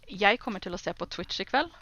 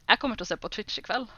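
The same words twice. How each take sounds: First: It is said in standard bokmål pronunciation. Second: It is said in a northern Norwegian dialect.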